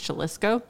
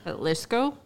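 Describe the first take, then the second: First: It begins with an English J sound. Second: It begins with an H sound. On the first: "I'm not sure how to pronounce it, but I think it's Jalisco" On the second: "That would sound weird"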